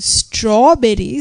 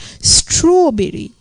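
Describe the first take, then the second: First: The first vowel is an open 'aw' sound. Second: The first vowel is a rounded 'oh' sound. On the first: The speaker calls it right. "when we are saying strawberry" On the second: The speaker calls it wrong. "some people might be pronouncing as, it as strawberry"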